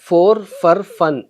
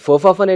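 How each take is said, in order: First: Each word is said fully and separately. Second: The words are run together in reduced form.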